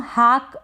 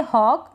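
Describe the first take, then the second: First: हाक with a long open "aa"; mispronounced hawk. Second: हॉक with rounded "aw"; correct aw sound. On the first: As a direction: say हाक as "haak", not "hawk". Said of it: "इसको हम हाक ना पढ़ें". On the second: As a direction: say हॉक as "hawk", not "haak". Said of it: "आप इसको पढ़ेंगे हॉक". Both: Shown as a demonstration.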